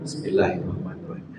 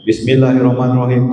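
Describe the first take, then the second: First: It is said quietly, under the breath. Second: It is said loudly, fully aloud.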